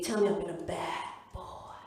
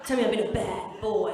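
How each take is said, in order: First: Low, slow American seducer; drawn-out mock-sexy American voice; American accent. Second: Louder, low West Country voice; broad Shepton Mallet bed talk; Shepton Mallet accent. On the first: Partner talking dirty in bed, slow American accent. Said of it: "I give him an American accent". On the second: Retold or imitated. Partner talking dirty, in a Shepton Mallet accent. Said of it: "he's from Shepton Mallet".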